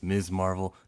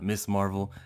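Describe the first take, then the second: First: The first word ends with a buzzing z sound. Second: The first word ends with a hissing s sound. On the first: The speaker calls it right. "It's Miz Marvel" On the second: The speaker calls it wrong. "not Miss Marvel"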